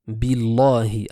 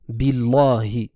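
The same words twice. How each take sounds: Both takes have the same delivery.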